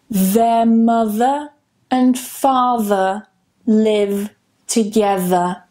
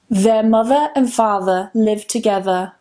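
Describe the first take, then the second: First: The sentence is said slowly and carefully. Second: The sentence is said at a natural, quicker speed.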